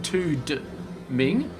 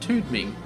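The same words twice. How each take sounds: First: The D sound is pronounced strongly and clearly. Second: The D sound is soft, barely heard. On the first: The speaker calls it wrong. "So you're not saying Tude Ming" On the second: The speaker calls it right. "not silent D when we're just not accentuating it"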